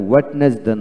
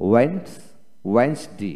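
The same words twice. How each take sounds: First: ওয়েডনেসডে as "wed-nes-day"; wrong, d sounded. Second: ওয়েডনেসডে as "wens... wens-day"; correct, silent d. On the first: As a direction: sound every syllable of ওয়েডনেসডে, first d included. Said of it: "এখানে ওয়েডনেসডে নয়". (ডি সহ ওয়েড-নেস-ডে) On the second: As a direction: give the start "wens", then all of ওয়েডনেসডে without first d. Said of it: "ওয়েডনেসডে হবে না". (প্রথম ডি ছাড়া ওয়েন্স-ডে) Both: Shown as a demonstration.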